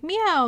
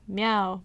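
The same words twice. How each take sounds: First: The meow is in a higher, ordinary pitch. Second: The meow is in a very low, deep pitch. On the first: An ordinary cat makes this sound. "most cats are like" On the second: This particular cat makes this sound. "meows deeper than most cats"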